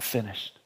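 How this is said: It is said in a defeated, dejected tone. The speaker has been beaten and gives up. The speaker calls it wrong. "this is not a cry of defeat. Oh"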